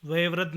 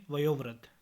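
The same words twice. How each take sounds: First: वयोवृद्ध with e in place of o; mispronunciation. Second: Said in the usual way. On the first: Shown as a demonstration. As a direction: say va-ye-vriddh for वयोवृद्ध. (वयोवृद्ध को वयेवृद्ध बोलें) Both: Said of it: "नहीं".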